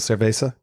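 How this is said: The z is said with an s sound. This is how people speak in Mexico or South America. "Mexico or South America, where they go cerveza"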